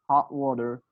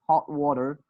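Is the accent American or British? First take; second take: American; American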